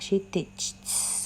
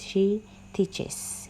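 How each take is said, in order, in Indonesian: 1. Hanya bunyi s yang ditambahkan, tidak ada suku kata tambahan. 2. Akhiran itu membentuk suku kata tambahan, es. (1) "kalau kita tambah S bacanya gimana" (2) "harus ditambah E S"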